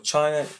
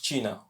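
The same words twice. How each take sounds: First: It is pronounced with English sounds. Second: It is pronounced with Spanish sounds.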